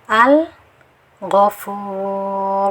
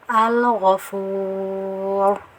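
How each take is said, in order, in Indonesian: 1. Ada jeda singkat yang memutus kata setelah huruf lam. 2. Huruf lam langsung menyambung ke kata tanpa berhenti. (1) "jangan diberi saktah" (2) "yang betul seperti ini"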